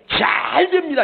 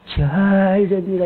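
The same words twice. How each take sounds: First: The word 잘 is strongly accented and raised. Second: The word 잘 is said flat without accent. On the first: The speaker calls it right. "이렇게 해야지. 잘에다가 액센트를 하는 거야" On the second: The speaker calls it wrong. "이러지 말고"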